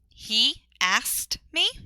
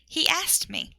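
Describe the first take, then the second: First: The words are said without a linking y sound. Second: A quiet y sound links he to asked.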